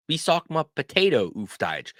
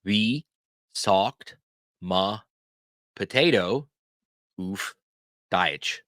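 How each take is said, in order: First: Fluent, joined-up question, higher pitched; whole-question demo. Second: Each word alone with a long pause; very slow, spaced out for repeating; word-by-word teaching demo. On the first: Teacher models asking someone for a word, in one flow. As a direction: say it straight through in one flow. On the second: Teacher shows learners how to ask for a word, word by word. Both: Shown as a demonstration. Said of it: "ask the question this way".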